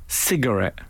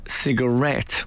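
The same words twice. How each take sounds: First: The stress falls on the first syllable. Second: The stress falls on the last syllable. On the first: This is the newer, American-influenced way of saying it. The speaker calls it wrong. "But now people have started saying cigarette. And that's wrong" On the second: This is the older English way of saying it. The speaker calls it right. "I'm sure everyone in England said cigarette with the stress on the et"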